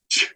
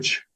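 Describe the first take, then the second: First: CH with a strong puff of air; aspirated CH. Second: CH with little air behind it; unaspirated CH. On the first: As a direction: push more breath out on CH. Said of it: "more air comes out of your mouth". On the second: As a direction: hold back the puff on CH. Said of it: "instead of ch". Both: Shown as a demonstration.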